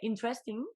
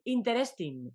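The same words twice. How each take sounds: First: It is said with a native English accent. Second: It is said with a Spanish-style accent. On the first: The speaker calls it right. "lo dice mejor" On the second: The speaker calls it wrong. "en lugar de decir interesting"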